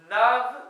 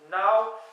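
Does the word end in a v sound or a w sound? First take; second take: v sound; w sound. First: The word ends with a v sound. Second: The word ends with a w sound. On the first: The speaker calls it wrong. "je me suis aussi trompé" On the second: The speaker calls it right. "on prononce now pour neuf, N A W en prononciation"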